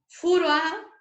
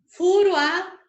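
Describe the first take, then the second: No difference in how they are said.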